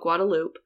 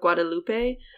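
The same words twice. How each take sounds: First: Guadalupe is said the local Austin way. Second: Guadalupe is said in the speaker's usual way. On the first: "which people call Guadalupe" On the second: "I just have problems with pronouncing it that way"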